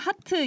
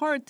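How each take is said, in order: First: It is said with Korean pronunciation. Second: It is said with English pronunciation. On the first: "한국말로는 하트 이러지만" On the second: "영어로 한다 그러면 heart 막 약간 이러거든요"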